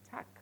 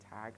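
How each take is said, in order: First: The word ends with a voiceless k sound. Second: The word ends with a voiced g sound. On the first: The speaker calls it right. "I am pronouncing tack" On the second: The speaker calls it wrong. "I am not pronouncing tag"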